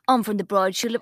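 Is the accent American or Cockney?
Cockney. It is spoken in a Cockney accent. "Can you do Cockney?"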